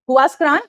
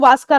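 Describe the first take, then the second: First: The name begins with a 'hoo-ah' sound. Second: The name begins with a 'wa' sound. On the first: The speaker calls it wrong. "इसको अगर आप ऐसे प्रोनाउंस करोगे" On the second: The speaker calls it right. "जो इसका actual name है"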